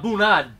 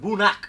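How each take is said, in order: First: The word is said with a D sound. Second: The word is said without a D sound. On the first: This is how the spelling makes it look. The speaker calls it wrong. "It looks like a boonad" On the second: This is the real pronunciation. The speaker calls it right. "but it's a boonak"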